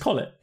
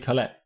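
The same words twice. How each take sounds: First: The second syllable has an 'i' vowel, 'lit'. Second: The second syllable has an 'e' vowel, 'let'. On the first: The speaker calls it right. "spelt with an E, said with an I" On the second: The speaker calls it wrong. "most people call me Colette"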